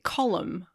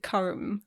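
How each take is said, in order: First: The name is said with two syllables. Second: The name is said with one syllable. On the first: This is how Irish speakers say it. The speaker calls it right. "they kept calling him Column" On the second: This is how the speaker used to say it. The speaker calls it wrong. "I used to pronounce it Comb. You know, like calm"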